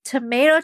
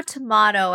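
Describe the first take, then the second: First: Tomato said tuh-MAY-toh; tomato, middle syllable like "may". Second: Tomato said tuh-MAH-toh; tomato, middle syllable like "mah". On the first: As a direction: say tomato with a long AY. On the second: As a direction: say tomato with a broad AH. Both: Shown as a demonstration. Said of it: "it's like tomato, tomato".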